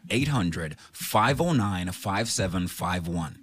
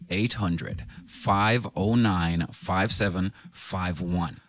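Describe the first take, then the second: First: The number is said at a normal, quicker pace. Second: The number is said slowly and deliberately.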